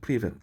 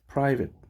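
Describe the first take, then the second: First: The first syllable has an "ee" vowel. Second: The first syllable has an "eye" vowel. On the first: The speaker calls it wrong. "내가 옛날에 이 단어를 어떻게 읽었냐면 프리 프리벳으로 읽었어" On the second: The speaker calls it right. "프라인데"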